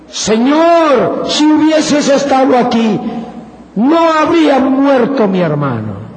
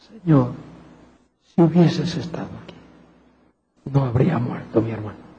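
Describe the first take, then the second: First: It is said forcefully, with energy. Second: It is said softly and gently.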